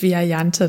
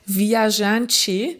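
First: The word is pronounced with German sounds. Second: The word is pronounced with Portuguese sounds. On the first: This is the casual local form of the word. "im Umgangssprachlichen hier auch eingedeutscht Viajante" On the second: This is the original form of the word. "eigentlich ist es Portugiesisch und heißt Viajante"

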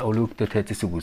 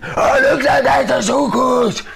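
First: It is said at a normal volume. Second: It is shouted very loudly.

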